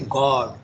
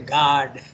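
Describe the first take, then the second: First: It is said with a British English vowel. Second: It is said with an American English vowel. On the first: "in English, they will say" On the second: "in America, they say"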